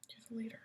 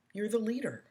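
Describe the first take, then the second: First: Soft whispered repeat; whispered emphasis. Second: Said in the usual way. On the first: Real, not acted. Whispering encouragement to the parent viewer. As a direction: breathe it as a final point.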